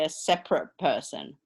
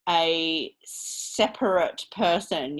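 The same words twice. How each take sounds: First: The last syllable is reduced to a weak vowel. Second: The last syllable has a full 'ate' vowel. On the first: The speaker calls it right. "that eight goes all the way down to practically nothing" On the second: The speaker calls it wrong. "You don't say"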